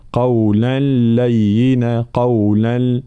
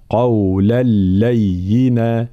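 First: Sung, قولا لينا with a nasal ghunnah on the merged lam; sung, let the join in قولا لينا ring through the nose; sung, faulty nasalised recitation of قولا لينا; wrong nasal hum. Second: قولا لينا recited very slowly with a pure doubled lam; drawn-out correct قولا لينا, oral lam; merging without ghunnah. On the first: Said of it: "معناها صوت يخرج من الخيشوم". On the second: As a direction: join قولا لينا with no hum through the nose. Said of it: "هكذا". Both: Shown as a demonstration.

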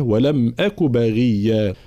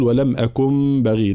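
First: Slow recitation, "أك" ending openly without n; no nun. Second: Recited with an extra n in "أكن"; wrong added nun. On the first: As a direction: go from "أك" straight to "بغيا", no n. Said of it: "ولم أك هنا طبعًا بلا نون". ("أك" بلا نون) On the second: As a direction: close "أكن" on a nasal n before "بغي". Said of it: "فلا نقول". (زيادة نون في "أكن") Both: Shown as a demonstration.

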